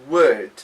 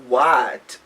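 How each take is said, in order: First: The vowel in 'what' is reduced to schwa. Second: The vowel in 'what' is full and clear. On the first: The speaker calls it right. "we have the schwa sound. This is the uh sound" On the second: The speaker calls it wrong. "instead of"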